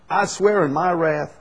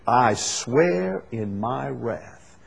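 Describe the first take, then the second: First: "I swear in my wrath" lifted higher and louder, punching "swear"; emphatic stress on "swear", voice raised; raised emphatic oath. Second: "I swear in my wrath" drawn out slowly, weight on "swear"; slow, grave stress on "swear"; slow solemn oath. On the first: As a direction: proclaim it, hit "swear" hard. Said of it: "this is God speaking". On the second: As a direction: let "swear" land heavy and slow, God's solemn oath. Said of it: "It's very emphatic". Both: Shown as a demonstration.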